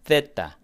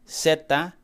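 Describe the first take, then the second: First: It is said the way people in Spain say it. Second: It is said without the Spain pronunciation.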